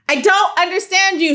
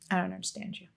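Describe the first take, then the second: First: It is said most loudly. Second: It is said at normal volume.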